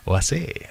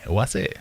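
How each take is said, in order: First: "Oasi" said as "o-eh-say", rising at the end; trying the pronunciation. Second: "Oasi" said as "o-ah-say", softer and rising; another pronunciation try. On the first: Streamer testing how to say the brand name, tentative and rising. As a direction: sound out "Oasi" as o-EH-say with a questioning lift. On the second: Streamer trying a second version of the brand name, softer. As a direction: try "Oasi" again as o-AH-say with a questioning lift. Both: Shown as a demonstration. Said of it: "What's with the accent?".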